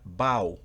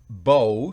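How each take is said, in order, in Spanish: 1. Se da la pronunciación del verbo. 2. Se da la pronunciación del sustantivo. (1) "si es el verbo inclinarse se pronuncia bow" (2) "bow significa arco"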